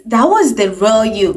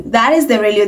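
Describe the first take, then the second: First: Was leaned on, falling; stress on was. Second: Is leaned on firmly; stress on is. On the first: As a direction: lean on was. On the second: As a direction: hit the word is. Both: Shown as a demonstration.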